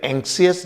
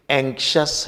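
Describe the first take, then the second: First: एंक्सियस with the i sounded, 'ank-si-us'; wrong pronunciation. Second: एंक्शस in two beats, 'ANK-shus'; correct pronunciation. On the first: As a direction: say एंक्सियस in three beats, ending 'see-us'. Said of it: "पर ये एंक्सियस नहीं". (एंक्सियस, 'सियस' वाला गलत उच्चारण) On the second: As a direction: say एंक्शस with 'shus' and no i. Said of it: "एंक्शस है". (एंक्शस, 'शस' वाला सही उच्चारण) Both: Shown as a demonstration.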